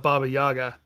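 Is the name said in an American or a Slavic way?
American. The name is said with American-style pronunciation. The speaker calls it wrong. "the American version, people kind of call it"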